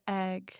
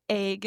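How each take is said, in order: First: "egg" with a short open E; standard "egg". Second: "egg" with a long AY vowel, like "ayg"; Pacific Northwest "egg". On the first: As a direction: say "egg" with the vowel of "bed". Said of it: "instead of egg". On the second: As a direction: say "egg" to rhyme with vague. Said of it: "Because we say, like, egg instead of egg". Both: Shown as a demonstration.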